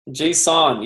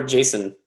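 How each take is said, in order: First: "json" as JAY-sawn, full second vowel; file-format pronunciation. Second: "jason" said like the name Jason; name-like pronunciation. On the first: Teacher settles the file format's name, JAY-sawn pronunciation. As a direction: say "json" with a clear "sawn" ending. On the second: Coder slips on the file format's name, name-like pronunciation. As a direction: say "jason" as JAY-sun, like the first name. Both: Shown as a demonstration. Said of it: "it's not Jason".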